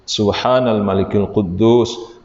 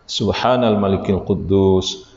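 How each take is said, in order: No difference in how they are said.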